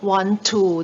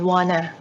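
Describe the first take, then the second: First: Both words are said fully and separately. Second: The words blend into one reduced word. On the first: "คำว่า want to" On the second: "กลายเป็น wanna"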